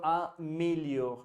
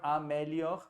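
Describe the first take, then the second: First: Améliore with a closed é, like "mé", slowly; améliore, syllable by syllable, é closed; dictionary pronunciation. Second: Améliore with an open è, like "mais"; améliore said wrongly, è open as in mais. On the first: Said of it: "So améliore". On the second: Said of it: "Not améliore". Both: Shown as a demonstration.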